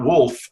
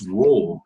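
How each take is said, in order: First: The middle consonant is an F sound. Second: The middle consonant is a V sound. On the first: The speaker calls it wrong. "it'll turn into an F if you're not careful" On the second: The speaker calls it right. "it's wolves"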